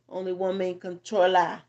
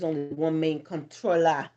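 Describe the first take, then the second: First: It is said in a put-on Jamaican accent. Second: It is said in the speaker's usual accent.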